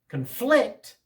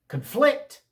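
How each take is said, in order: First: The stress is on the second syllable. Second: The stress is on the second syllable.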